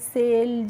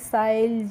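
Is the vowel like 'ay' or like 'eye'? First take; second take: ay; eye. First: The vowel sounds like 'ay'. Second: The vowel sounds like 'eye'. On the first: The speaker calls it right. "कैसे करना है बच्चों" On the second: The speaker calls it wrong. "इस तरीके से नहीं pronounce करना है"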